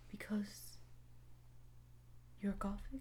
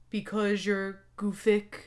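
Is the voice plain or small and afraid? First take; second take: afraid; plain. First: It is said in a small, afraid voice. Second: It is read in a plain, ordinary voice.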